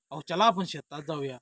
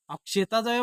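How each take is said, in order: First: Said in the usual way. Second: Raised-pitch mimicked request; not said straight. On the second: Shown as a demonstration. (वरच्या पट्टीत नक्कल करून) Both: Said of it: "मग तू सरळ बोल ना".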